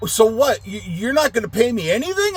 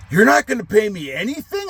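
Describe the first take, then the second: First: Much higher mocking whiny question; indignant customer. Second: Much higher whiny mock question; mocking his question. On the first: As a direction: mimic the guy asking about pay. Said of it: "And he's like". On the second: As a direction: mimic the guy's indignant complaint. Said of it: "funny, his response".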